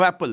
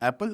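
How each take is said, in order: First: The pitch falls at the end like a statement. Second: The pitch rises at the end like a question. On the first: "It's not a full stop" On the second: "It's with a question mark"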